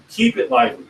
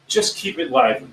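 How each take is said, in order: First: Pitched up, lively delivery. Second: Said in the usual way. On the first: Shown as a demonstration. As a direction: lift the voice to show liveliness. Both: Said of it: "Keep your voice. Bring it up".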